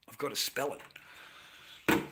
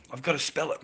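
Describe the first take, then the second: First: Slow, hushed whisper; whispering that he has to spell the word. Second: Said in the usual way. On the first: Real, not acted. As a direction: lean in and whisper it like a secret.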